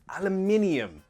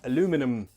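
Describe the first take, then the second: First: It is said the British way, with five syllables. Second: It is said the American way, with four syllables. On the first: "British English, aluminium" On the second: "American English says aluminum"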